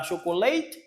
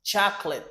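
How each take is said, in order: First: "chocolate" with a full "late" ending, as in "sho-ko-LAYT"; wrong pronunciation demo. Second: "chocolate" as two-syllable "CHAK-lit"; English "chocolate", short unstressed last syllable; correct English pronunciation. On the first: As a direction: say "chocolate" French-style at the start, ending in "layt". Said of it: "C'est pas chocolate". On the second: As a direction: start "chocolate" with a CH and swallow the middle vowel. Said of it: "Comment on prononce là en anglais". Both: Shown as a demonstration.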